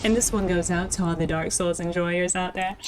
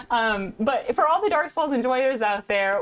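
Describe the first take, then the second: First: Smooth radio host dedication. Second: Said in the usual way. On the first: Acted. Streamer dedicates the shout-out to Dark Souls fans, radio DJ voice. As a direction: spin it like a late night radio DJ. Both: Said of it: "why that sounded like a radio".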